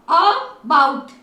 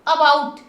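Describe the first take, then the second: First: अबाउट split slowly into "a" and long "baaut"; sounded-out word. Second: Said in the usual way. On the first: Shown as a demonstration. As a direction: stretch अबाउट syllable by syllable. Teacher sounds out, then blends. (अबाउट को तोड़कर, धीरे बोलें)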